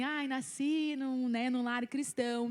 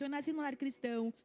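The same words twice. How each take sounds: First: Slow, drawn-out church cliché; mocking how everyone says it, slowly. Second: Said in the usual way. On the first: To the congregation, lightly mocking the usual testimony opener, drawn out. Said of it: "a gente fala assim". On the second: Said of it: "Então, realmente".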